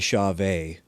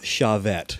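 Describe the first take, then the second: First: The name ends in a 'vay' sound. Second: The name ends in a 'vet' sound. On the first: The speaker calls it right. "it is officially Chauvet" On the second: The speaker calls it wrong. "not Chavette"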